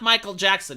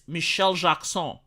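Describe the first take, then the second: First: The name is pronounced the English way. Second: The name is pronounced the French way.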